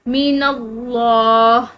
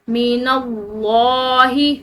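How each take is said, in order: First: The word stops short with no final vowel. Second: The word ends with a short final i vowel. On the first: The reader stops at this word. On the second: The reader continues without stopping.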